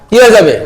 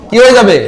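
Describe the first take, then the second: Both takes have the same delivery.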